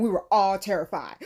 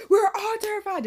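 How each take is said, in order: First: Said in the usual way. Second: Higher and louder second take; emphatic repeat. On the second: Real, not acted. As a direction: say it again with more punch.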